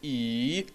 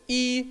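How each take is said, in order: First: The pitch dips low and then rises. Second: The pitch stays high and level. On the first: "третий – «и»" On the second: "первый – это «и»"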